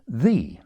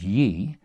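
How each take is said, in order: First: The word begins with a th sound. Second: The word begins with a y sound. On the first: The speaker calls it right. "but as the" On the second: The speaker calls it wrong. "shouldn't be pronounced as ye"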